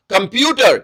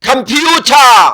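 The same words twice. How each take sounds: First: Said in the usual way. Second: کمپیوٹر said slowly, each syllable separated; teacher modelling کمپیوٹر; slow careful pronunciation. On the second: Shown as a demonstration. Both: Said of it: "اس کا تلفظ".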